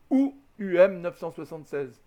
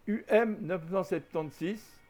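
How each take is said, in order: First: Dire « soixante-seize », la forme de France; « neuf cent soixante-seize » dit normalement; variante soixante. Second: Dire « septante-six » au lieu de soixante-seize; « neuf cent septante-six », à la manière belge ou suisse; variante septante. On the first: (lire le chiffre avec « soixante-seize ») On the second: (lire le chiffre avec « septante ») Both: Shown as a demonstration. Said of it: "Ça n'a pas d'importance".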